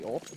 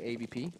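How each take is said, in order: First: The middle letter is said as W. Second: The middle letter is said as V. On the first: This is the usual English way of saying it. "you don't say A W P" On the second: This is how Danish speakers say it. "in Danish, you just say A V P"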